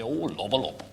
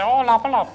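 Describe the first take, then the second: First: It is said in a deep voice. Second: It is said in a higher-pitched voice. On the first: "who was the deep voice one" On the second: "with the slightly higher pitched voice"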